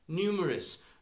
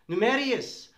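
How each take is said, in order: First: The ending is said without an extra 'ee' sound. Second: The ending is said with an extra 'ee' sound. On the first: The speaker calls it right. "Numerius is not the pronunciation of the word numerous" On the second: The speaker calls it wrong. "if you say numerius, no one will get it"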